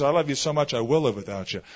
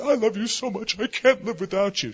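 First: Said in the usual way. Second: High, gushing imitation of lovers; hammed-up romantic pleading; mock lovesick cliché. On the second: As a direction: mimic a clingy sweetheart in a high voice. Mimics what people usually say.

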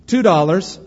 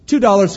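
First: Auctioneer asking. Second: Auctioneer's louder call. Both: Acted. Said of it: "he cried".

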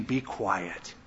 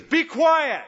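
First: Much lower, softer calm rebuke; hushed quiet command. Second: Much higher, louder authoritative shout; thunderous rebuke; commanding shout. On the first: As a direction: say it low and gently. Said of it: "the idea of Jesus saying". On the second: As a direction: silence the demon with full authority. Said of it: "and he says". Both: Pretend.

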